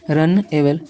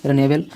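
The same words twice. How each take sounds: First: "रन एबल" said as two separate parts; teacher sounding out "रन", then "एबल"; split into parts. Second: Said in the usual way. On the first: Shown as a demonstration. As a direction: pause between "रन" and "एबल". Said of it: "तो एक में इसको जोड़ दीजिए". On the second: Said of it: "रनेबल पढ़ सकते हैं".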